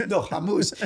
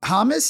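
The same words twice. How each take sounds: First: "Hamus" with a long "oo"; correcting pronunciation. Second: "Hamas" with weak second vowel, rising; mispronounced questioning name. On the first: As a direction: correct them, sounding "Hamus" as ha-MOOS. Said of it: "He goes". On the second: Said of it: "you go". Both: Retold or imitated.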